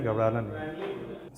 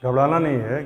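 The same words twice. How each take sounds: First: Much softer and slower, gently calming; soft reassurance. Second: Said in the usual way. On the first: Real, not acted. Teacher reassuring a nervous student, softly and slowly. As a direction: ease a nervous student's fear.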